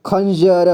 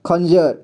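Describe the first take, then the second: First: खंजर split as "khan-ja-ra"; खंजर with final र voiced as "ra"; sounded out. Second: Said in the usual way. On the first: Shown as a demonstration. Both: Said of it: "इसे क्या पढ़ेंगे?".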